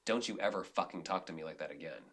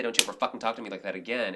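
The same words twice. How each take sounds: First: Low, hushed, firm warning said off to the side; private warning. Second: Quick, firm, even statement; assertive and calm. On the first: Retold or imitated. Director pulling a crew member aside, hushed and firm. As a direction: pull them aside and keep it quiet but firm. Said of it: "pull somebody aside and say". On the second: Shown as a demonstration. Director showing how to set a boundary, assertive and calm. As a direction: say it straight and assertive without heat. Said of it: "and be assertive and calm".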